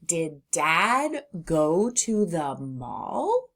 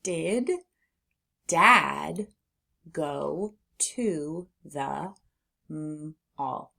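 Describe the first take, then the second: First: Slow question, rising on "mall"; question intonation. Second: Slow word-by-word reading with long pauses; sounding out. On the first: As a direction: read "Did Dad go to the mall" slowly as a question, lifting the end. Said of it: "Now read it like a question". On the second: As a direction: read each word alone, sounding out "mall". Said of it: "Let's read". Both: Shown as a demonstration.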